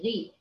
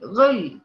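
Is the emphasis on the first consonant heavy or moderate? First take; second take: moderate; heavy. First: The first consonant is only moderately emphasized. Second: The first consonant is strongly emphasized and heavy. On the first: The speaker calls it right. "لا غي" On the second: The speaker calls it wrong. "ما بتقوليش غل"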